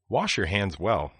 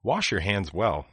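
Both takes have the same delivery.

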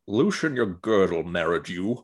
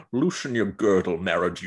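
First: Connery impression. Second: Gruff Scottish Connery voice, lightly done; Sean Connery impression. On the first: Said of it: "sitting on this Connery impression". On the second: Repeating the line on request as a Scottish Connery. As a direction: growl it out like a gruff Scotsman. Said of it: "gruff Scotsman mode".

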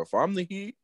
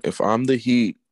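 First: "I'm" lifted high with a rising tune; stress on I'm. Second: Said in the usual way. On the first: Real, not acted. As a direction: push "I'm" up and let the phrase rise. Repeats the phrase, emphasis on I'm.

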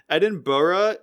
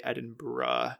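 First: "Edinburgh" in four syllables, ending "burra"; Western English pronunciation. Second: "Edinburgh" with the ending shortened to "bruh"; Scottish pronunciation. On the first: Podcaster explaining Western English usage, Edinburgh as "Edin-burra". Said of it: "the way that it's pronounced in". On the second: Podcaster advising how a Scottish person says it, Edinburgh as "Edin-bruh". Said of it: "say it like a Scottish person". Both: Shown as a demonstration.

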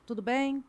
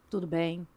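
First: "Tudo bem?" asked as a question with a rising end; asking intonation. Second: "Tudo bem." said lower, as a settled falling statement; stating intonation. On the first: Mother testing intonations with her son, rising question. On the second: Mother testing intonations with her son, low falling answer. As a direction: drop the pitch and close "Tudo bem." flat and final. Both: Shown as a demonstration. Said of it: "experimentando entonações".

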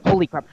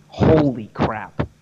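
First: Much higher, louder amazed squeal; squeaky disbelief. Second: Drawn-out, slow astonishment; slow amazed holy crap. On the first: High squeal of disbelief at how easy Spanish is. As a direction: pop up into a high astonished yelp. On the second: Marveling slowly at how easy Spanish is. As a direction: let it sink in slowly, awed. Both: Real, not acted.

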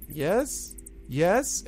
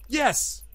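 First: Higher, tentative goblin yes; a touch of nervous pleading, pitched up. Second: High, emphatic goblin yes; defiant. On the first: Goblin Gleek pleading to Pyron, mildly nervous. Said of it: "looking nervously over his shoulder". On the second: Goblin Gleek standing up to Hark, defiant. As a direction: blurt it out in sudden defiance, pitched way up. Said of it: "he stands up defiantly". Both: Acted.

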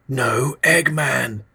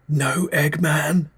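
First: High, very slow reedy murmur; a reedy, drawn-out repeat; thin reedy whisper. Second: High, slow, thin reedy voice; a reedy, wavering question. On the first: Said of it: "he whispered". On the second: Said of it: "His voice was thin and reedy". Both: Acted.

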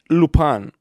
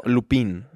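First: Lupin a la francesa, sonando «lu-PAN»; pronunciación francesa. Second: Lupin read as spelt in Spanish, "lu-PEEN"; pronunciación española. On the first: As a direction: say Lupin French-style, ending in an open "pan" sound. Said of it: "es que está en francés". (Lupin pronunciado en francés, como «lupán») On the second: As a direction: say Lupin with a clear Spanish "pin". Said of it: "en español es, pues, Lupin". (Lupin a la española, como «lupín») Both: Shown as a demonstration.

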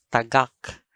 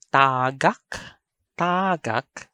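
First: Tagak with short TA, stressed GAK; stress on second syllable. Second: Tagak with long TAA; TAA-gak; stress on first syllable. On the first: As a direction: put the weight on the end of tagak. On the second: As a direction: stretch the first vowel of tagak. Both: Shown as a demonstration. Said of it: "I'm going to read".

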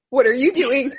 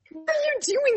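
First: Said in the usual way. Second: Startled question. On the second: Retold or imitated. Confronting sleepwalker.

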